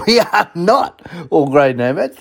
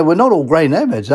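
First: Laughing through the repeat; amused repeat of the joke. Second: Said in the usual way. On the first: Real, not acted. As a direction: chuckle as you say it again.

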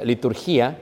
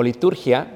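First: "liturgía" with the stress on GÍ; stress on final -GÍA. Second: "liturgia" with the stress on TUR. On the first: Preacher offering a word the congregation may have heard, "liturgía" stressed on GÍ. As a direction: say "liturgía" as li-tur-GÍ-a, stretched slightly. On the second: Preacher giving the alternative pronunciation to the congregation, "liturgia" stressed on TUR. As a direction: say "liturgia" as li-TUR-gia, the final -gia unstressed. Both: Shown as a demonstration. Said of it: "Como se pronuncia en griego".

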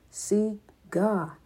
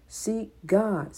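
First: "Seek" pressed firm, "God" falls away; stress on SEEK. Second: "God" pressed firm and falling, "Seek" light; stress on GOD. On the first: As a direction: lean on the word "Seek". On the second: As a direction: lean on the word "God". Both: Shown as a demonstration. Repeated exhortation, stress shifts.

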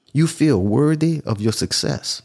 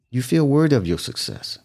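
First: Slow, deliberate statement; slow emphasis. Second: Said in the usual way. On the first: Shown as a demonstration. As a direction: lay each word down slowly. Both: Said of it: "repeated for emphasis".

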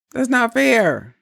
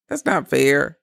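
First: Higher and slower, leaning on fair; slow down and press the word fair hard; emphatic repeat. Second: Said in the usual way. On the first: Real, not acted. Telling women a double standard is unfair, slowly and with weight.

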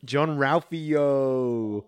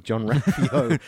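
First: Long drawn-out excited holler; excited exclamation. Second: Name broken up by laughter; laughing. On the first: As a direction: sing out the name, stretching it right out. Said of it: "excited exclamation of". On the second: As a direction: repeat the name through a laugh. Laughs while repeating own exclamation. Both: Real, not acted.

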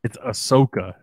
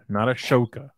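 First: Ahsoka said with a plain s in the middle; correct pronunciation. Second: Ashoka said with a sh in the middle; mispronunciation shown. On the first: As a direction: stress the clean "so" in Ahsoka. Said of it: "that's just not how it's said". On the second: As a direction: say Ashoka with "sho" as the second syllable. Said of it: "There's an H in there". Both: Shown as a demonstration.

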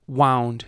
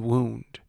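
First: WOUND rhyming with "found", as in wrapped; heteronym wound. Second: WOUND said "woond", as in an injury; heteronym wound. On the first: Host contrasting heteronyms for learners, wound rhyming with found. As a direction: say "wound" with an OW sound. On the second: Host contrasting heteronyms for learners, wound said woond. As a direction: say "wound" with a long OO. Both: Shown as a demonstration. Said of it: "the heteronyms in this sentence are".

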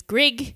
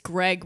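First: "Grig" for Greg, Australian short i; Australian vowel, tightening Greg to "Grig"; Australian accent. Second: Said in the usual way. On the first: Shown as a demonstration. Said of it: "which is Grig". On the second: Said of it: "Mine personally is just Greg".

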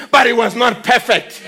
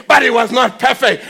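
Both takes have the same delivery.

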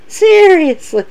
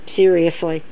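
First: High exasperated. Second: Quiet and low, unimpressed; low deadpan. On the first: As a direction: throw it up high in disbelief. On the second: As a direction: mutter it flatly under your breath. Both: Shown as a demonstration.

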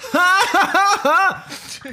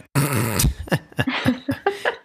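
First: Big risky laugh. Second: Small restrained laugh. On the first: Host showing a laugh that means trouble, big high guffaw. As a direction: laugh out hugely, far above talking pitch. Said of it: "if you laugh like this". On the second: Host showing a safe way to laugh, small restrained laugh. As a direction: laugh discreetly, keeping it in. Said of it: "guy who laughs like this". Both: Shown as a demonstration.

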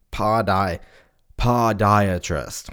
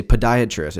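First: "podiatrist" said slowly as POD-eye-atrist; slow "podiatrist", first syllable sounding like "pod". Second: Said in the usual way. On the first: Shown as a demonstration. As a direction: say "podiatrist" with a full "pod" as in podcast. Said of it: "It's like pod, like podcast". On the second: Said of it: "But no, we say podiatrist".

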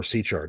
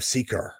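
First: "Sychar" with a ch as in chair; "Sychar" pronounced with ch, not k; alternative pronunciation. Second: "Sychar" with a hard k in the middle; "Sychar" pronounced with a k sound; first pronunciation variant. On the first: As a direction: soften the middle of "Sychar" to a ch sound. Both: Shown as a demonstration. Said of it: "depending on how you want to pronounce it".

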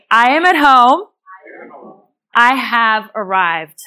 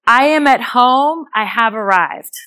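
First: Calm and slow, letting it land; slow calm affirmation. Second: Said in the usual way. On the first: Shown as a demonstration. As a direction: speak it as a peaceful promise. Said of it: "So repeat after me". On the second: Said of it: "the affirmation for that is".

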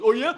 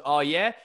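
First: Much higher and louder hammed-up dare; aggressive taunt. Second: Put-on a touch of a cocky kid daring him; mild mock dare, louder; challenging taunt. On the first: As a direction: sneer it up high like a punk picking a fight. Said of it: "And he goes". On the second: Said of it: "And the guy goes".

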